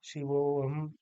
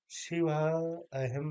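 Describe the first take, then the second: First: शिवोहम loud, with the वो held long; joined long o. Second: शिव अहम slowly, each word apart; two separate words. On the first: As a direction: run शिवोहम into one word on a sustained o. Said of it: "एक साथ". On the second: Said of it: "नहीं कहेंगे". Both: Shown as a demonstration.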